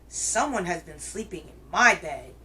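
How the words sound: It is said in a great big growling voice.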